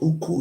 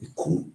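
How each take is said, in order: First: The word begins with a u vowel. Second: The word begins with an i vowel. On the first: The speaker calls it wrong. "It's not Uku" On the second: The speaker calls it right. "it's called Iku"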